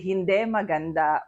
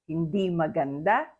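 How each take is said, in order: First: The last vowel of hindi sounds like e. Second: The last vowel of hindi sounds like i. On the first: The speaker calls it wrong. "you don't say hindi maganda" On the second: The speaker calls it right. "you pronounce it as the usual I sound"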